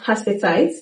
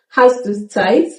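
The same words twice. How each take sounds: First: Hast du is shortened and run together. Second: Every word is pronounced in full.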